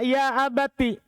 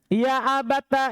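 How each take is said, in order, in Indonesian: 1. Kata ini diakhiri dengan vokal 'i'. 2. Kata ini diakhiri dengan vokal 'a'. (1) "Selain Ibnu Amir dari ahli qiraah yang tujuh membaca ya abati" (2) "Jadi Ibnu Amir membaca ya abata"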